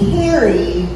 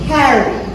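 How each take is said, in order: First: The name is said with a California accent. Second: The name is said with a New Jersey accent. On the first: The speaker calls it wrong. "like a little bitch" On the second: The speaker calls it right. "dig into your inner Jersey girl and add like an extra A, A, H, H, H"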